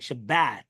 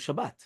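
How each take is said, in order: First: The a vowel sounds like in 'bat'. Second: The a vowel sounds like in 'father'. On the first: The speaker calls it wrong. "pronounced like the short a in the word bat or sat, right? Like Shabbat. That's incorrect" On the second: The speaker calls it right. "We do Shabbat, but not uh, eh"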